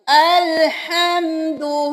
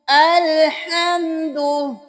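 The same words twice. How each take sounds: No difference in how they are said.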